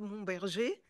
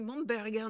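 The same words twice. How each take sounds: First: The name is pronounced the French way. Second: The name is pronounced the German way. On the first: The speaker calls it wrong. "non pas Momberger" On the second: The speaker calls it right. "bien prononcé Momberger ... c'est allemand"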